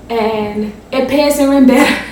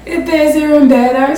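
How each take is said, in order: First: Said in the usual way. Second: Chuckling through the words; pleased, giggly repeat; laughing. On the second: Real, not acted. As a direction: laugh as you repeat the good news.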